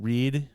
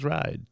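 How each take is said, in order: First: The name has an 'ee' vowel sound. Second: The name has an 'eye' vowel sound. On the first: The speaker calls it wrong. "I've been saying Read" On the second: The speaker calls it right. "So I'm going to now say Elise Ride"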